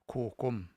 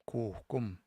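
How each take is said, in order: No difference in how they are said.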